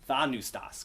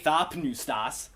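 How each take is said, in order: First: No p sound is heard before the n. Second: A p sound is heard before the n. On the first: "They say thanustas" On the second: "they don't say thapnustas"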